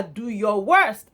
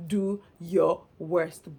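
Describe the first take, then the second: First: "worst" drawn out in a slow, firm dare; slow, louder challenge landing on "worst"; retold dare. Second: "Do", "your", "worst" slowly set apart; lower, very slow quote, a gap after "Do" and "your"; three separate words. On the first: Theo daring Jenny during their quarrel, slow retold challenge. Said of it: "Theo said to her". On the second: Retold or imitated. Host puzzling over Theo's three words, slow word-by-word quote. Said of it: "what is in those three words".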